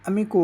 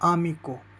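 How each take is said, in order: First: The first vowel sounds like 'eh'. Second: The first vowel sounds like 'ah'. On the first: The speaker calls it wrong. "English के अनुसार ये अम्मी को हो गया" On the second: The speaker calls it right. "लेकिन आपको पढ़ना है आमी को"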